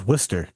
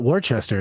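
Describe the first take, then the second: First: "Worcester" said as "Wuss-ter", two syllables; local pronunciation. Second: "Worcester" said as "war-chester"; wrong spelled-out reading. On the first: Correcting friend on the town's name, short local version. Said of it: "it's Worcester". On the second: Correcting friend on the town's name, spelled-out version. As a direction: sound out "Worcester" as three parts, war-ches-ter. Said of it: "it's not Worcester". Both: Shown as a demonstration.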